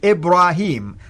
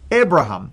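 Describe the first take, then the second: First: The last syllable has a long 'ee' vowel. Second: The last syllable has a short 'a' vowel. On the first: This is the later, usual form of the name. "with the yeah, the way the Quran pronounced it" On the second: This is the older form of the name. "without the yeah, but it sounds like the Hebrew way of saying it"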